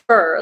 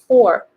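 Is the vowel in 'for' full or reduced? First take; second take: reduced; full. First: The word is fully reduced, sounding like fur. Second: The word keeps a full vowel, like four. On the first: The speaker calls it wrong. "not fur, like completely contracted" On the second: The speaker calls it right. "Sounds like just four by itself"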